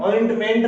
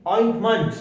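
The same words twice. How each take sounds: First: ऑइंटमेंट ending in a full "ment"; wrong strong ending. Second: ऑइंटमेंट ending in a reduced "munt"; weak ending. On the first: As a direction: give ऑइंटमेंट a clear "e" in its last syllable. (ऑइंटमेंट के अंत में पूरा "मेंट" बोलें) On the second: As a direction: weaken the last vowel of ऑइंटमेंट to "uh". (ऑइंटमेंट के अंत में हल्का "मंट" बोलें) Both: Shown as a demonstration. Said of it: "ऑइंटमेंट नहीं".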